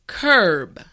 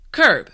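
First: The word is said slowly and carefully. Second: The word is said at a natural speed. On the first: "repeat after me" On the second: "now let's say it at a normal pace"

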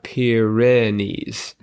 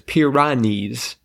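First: The second syllable has an 'eh' vowel. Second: The second syllable has an 'ah' vowel. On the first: The speaker calls it right. "not Pyrenees" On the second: The speaker calls it wrong. "I hear it as Pyrenees"

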